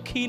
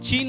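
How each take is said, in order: First: It begins with a throaty kh sound. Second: It begins with a ch sound. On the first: The speaker calls it right. "पण तो उच्चार जो आहे ना तो खीन आहे" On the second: The speaker calls it wrong. "चीन म्हणण्यापेक्षा"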